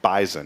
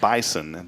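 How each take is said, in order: First: The middle consonant is a buzzing Z sound. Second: The middle consonant is a hissing S sound. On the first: The speaker calls it right. "They pronounce it bison" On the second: The speaker calls it wrong. "it's not bison"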